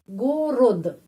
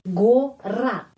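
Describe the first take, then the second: First: The second vowel sounds like O, ending in D. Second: The second vowel sounds like A, ending in T. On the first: "G O go, R O ro, D, gorod" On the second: "Kalau huruf O tidak mendapat penekanan, ... bunyinya A"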